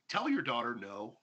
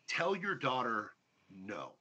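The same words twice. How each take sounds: First: The phrase is spoken at a normal pace. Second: The phrase is spoken very slowly.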